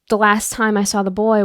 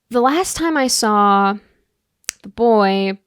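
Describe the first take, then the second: First: The phrase flows smoothly without any pause. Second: There is a pause between saw and the boy. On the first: The speaker calls it right. "do you see how naturally that flows?" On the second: The speaker calls it wrong. "there's like an unnecessary pause there between saw and the boy"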